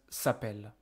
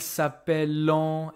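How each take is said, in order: First: The word ends on the 'l' with no vowel. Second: The ending is sounded as a nasal 'an' vowel. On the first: The speaker calls it right. "No, this is just s'appelle" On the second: The speaker calls it wrong. "don't start to tell me"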